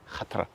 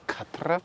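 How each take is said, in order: First: It starts with a throaty, rasping kh sound. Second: It starts with a plain hard k sound. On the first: The speaker calls it right. "This K H is pronounced khatra" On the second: The speaker calls it wrong. "don't say khatra"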